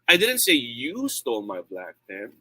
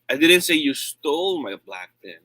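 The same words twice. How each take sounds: First: The stress falls on the word "you". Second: The stress falls on the word "stole". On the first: Someone else took the pen. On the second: The pen was borrowed, not stolen. "I said you borrowed it"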